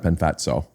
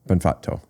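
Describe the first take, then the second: First: The middle consonant is a ts sound. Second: The middle consonant is a plain double t. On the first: The speaker calls it wrong. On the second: The speaker calls it right.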